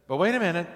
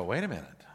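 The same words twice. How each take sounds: First: Higher, pressing stop; Paul interrupting the crowd, emphatic and insistent; emphatic objection. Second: Low, much softer wondering; the preacher's own puzzled reaction, quiet and low; puzzled aside. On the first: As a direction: cut in firmly, hold on. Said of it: "and he says". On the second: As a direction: mutter it to yourself, baffled. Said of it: "And I go". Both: Retold or imitated.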